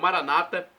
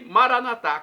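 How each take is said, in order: First: The stress falls on the second-to-last syllable. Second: The stress falls on the final syllable. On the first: This is how Protestants say it. "como dizem nossos irmãos separados, com a pronúncia diferente" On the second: This is how Catholics say it. "como dizemos nós católicos"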